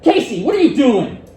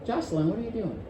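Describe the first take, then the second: First: Loud, high, stern demand; sharp loud reprimand; angry scolding tone. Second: Quiet, mild question; gentle hushed inquiry; soft gentle tone. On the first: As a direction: snap at the student like a cross parent. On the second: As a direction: ask it softly, no edge. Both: Shown as a demonstration. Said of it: "I used exactly the same words right there".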